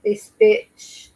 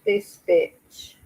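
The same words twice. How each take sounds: First: Sharp, loud, higher cry of disgust; furious outburst. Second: Said in the usual way. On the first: Real, not acted. Reacting to the footage, she bursts out in loud anger. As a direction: spit it out at the mother on screen.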